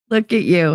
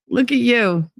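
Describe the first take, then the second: First: Said in the usual way. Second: High doting coo. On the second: Real, not acted. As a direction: gush over them fondly. Cooing at viewer, then repeated.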